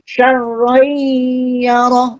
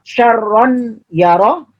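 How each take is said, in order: First: The n sound merges into y with nasal hum. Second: The n sound is pronounced clearly and separately. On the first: The speaker calls it right. "tapi syarron yaro, didengungkan" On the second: The speaker calls it wrong. "bukan dibaca"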